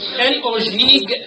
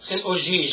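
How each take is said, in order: First: The last word ends with a hard g sound. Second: The last word ends with a soft j sound. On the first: The speaker calls it right. "It's Chen Ojig" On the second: The speaker calls it wrong. "you mispronounce it and say Chen Ojij"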